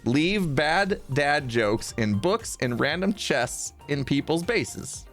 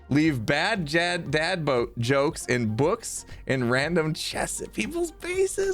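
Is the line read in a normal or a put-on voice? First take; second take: normal; put-on. First: It is read in a normal voice. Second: It is read in odd, put-on voices.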